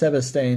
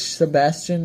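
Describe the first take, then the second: First: The name ends with an 'ane' sound. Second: The name ends with an 'ian' sound. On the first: The speaker calls it wrong. "I thought it was pronounced Sebastane" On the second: The speaker calls it right. "I'm pretty sure it's Sebastian"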